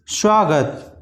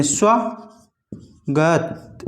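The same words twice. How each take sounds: First: Said in the usual way. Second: स्वागत drawn out very slowly, as if written with a separate full स; स्वागत stretched syllable by syllable; slow misreading of स्वागत; wrong split reading. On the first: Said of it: "इस प्रकार से". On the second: Shown as a demonstration. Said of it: "वो इस तरह से लिख देते हैं".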